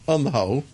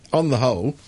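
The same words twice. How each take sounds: The two takes are said the same way.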